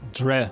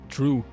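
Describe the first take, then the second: First: The word does not sound like 'drew'. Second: The word sounds like 'drew'.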